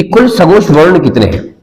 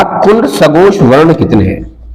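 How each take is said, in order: First: Said in the usual way. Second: "कुल सघोष वर्ण" drawn out word by word; slow, emphatic question. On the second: Acted. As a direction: read the exam question slowly and deliberately. Exam question repeated for emphasis.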